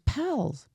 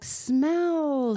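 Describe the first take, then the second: First: The word is said with a childlike lisp. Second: The word is said clearly without a lisp. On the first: A small child is trying to say it. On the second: The adult has understood the word.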